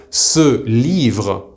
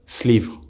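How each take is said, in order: First: 'ce livre' as two separate words, vowel in ce sounded; careful full form. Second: 'slivre' as one word, no vowel after the S; single S sound. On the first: Teacher explaining this is why, ce livre said in full. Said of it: "will often be pronounced". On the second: Teacher showing how ce livre is often pronounced, contracted slivre. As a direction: glue a bare S onto livre in 'slivre'. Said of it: "pronounced as a single S sound". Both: Shown as a demonstration.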